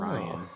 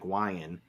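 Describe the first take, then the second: First: The first sound is a clear R. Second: The first sound is like a W. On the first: The speaker calls it right. "instead of" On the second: The speaker calls it wrong. "pronounce them like W's"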